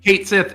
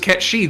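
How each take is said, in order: First: It is said as two words, 'kate sith'. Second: It is said as one word, 'ket-shee'. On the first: This reading was invented by the American localizers. The speaker calls it wrong. "entirely a localizer invention" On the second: This is how the games say it in Japanese. The speaker calls it right. "it was Ketshi the entire time"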